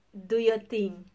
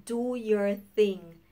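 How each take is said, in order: First: Dismissive. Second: Slow dismissive. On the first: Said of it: "We are always saying". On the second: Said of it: "That is basically saying". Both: Retold or imitated.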